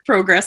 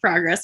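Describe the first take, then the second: First: It is said with a Canadian pronunciation. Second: It is said with an American pronunciation. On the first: "pick up their word progress" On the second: "instead of progress"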